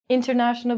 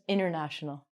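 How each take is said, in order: First: The T after the N is clearly pronounced. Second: The T after the N is dropped. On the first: "we're going to take out the T"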